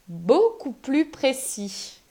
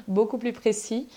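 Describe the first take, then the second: First: Slow, each word carefully articulated; deliberately slowing down to get it out; slow careful retry. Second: Said in the usual way. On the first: Real, not acted. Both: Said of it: "je vais y arriver".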